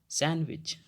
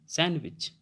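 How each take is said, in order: Both takes have the same delivery.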